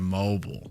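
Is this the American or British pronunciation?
American. It is said with an American pronunciation. "instead of"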